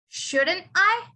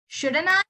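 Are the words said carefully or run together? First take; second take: careful; run together. First: Each word is pronounced separately and clearly. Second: The words blend together into one reduced form. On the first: "you normally say this as shouldn't I?" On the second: "when you say it in a colloquial way"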